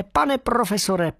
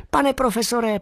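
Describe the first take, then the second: First: High, drawn-out squeaky call; slower excited squeak. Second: High, eager squeaking call; excited squeak. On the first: Bat calling the professor again, slower, squeaking. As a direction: stretch the name out, still squeaking. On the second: Bat squeaking happily to the professor. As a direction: squeak his name out in joy. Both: Acted. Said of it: "pískal jsem o sto šest".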